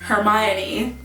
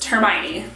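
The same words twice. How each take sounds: First: The name is said slowly, syllable by syllable. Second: The name is said quickly, syllables run together. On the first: "if you read it, it looks like" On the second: "when you say it fast"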